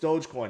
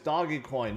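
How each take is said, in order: First: The first part is one syllable, like dohj. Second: The first part is two syllables, like doggy. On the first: The speaker calls it right. "No, it's Dogecoin. It's not Doggy Coin" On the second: The speaker calls it wrong. "you're saying it wrong. It's Doggy Coin"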